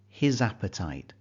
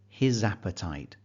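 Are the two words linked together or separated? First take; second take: linked; linked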